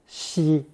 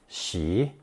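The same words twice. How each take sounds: First: The syllable is said with a high level pitch. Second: The syllable is said with a rising pitch. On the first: "first tone" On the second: "second tone"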